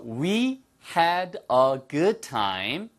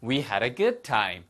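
First: "We had a good time" word by word; very slow, each word separated and drawn out; slow careful model. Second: Linked, natural-speed "We had a good time"; quick version. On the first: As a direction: spell it out slowly for learners. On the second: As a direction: run the words together smoothly and quicker. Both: Shown as a demonstration. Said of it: "빨리 하면".

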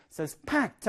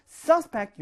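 First: Suspect with PECT stressed; light SUS, then lean on PECT in suspect; stress on second syllable. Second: Suspect with SUS high, falling after; stress on first syllable. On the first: Teacher contrasting verb with noun, suspect stressed on the back syllable. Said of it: "뒤에 강세가 있어요". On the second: Teacher contrasting noun with verb, suspect stressed on the first syllable. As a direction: punch SUS in suspect, higher pitched. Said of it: "앞에 강세가 있으면". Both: Shown as a demonstration.

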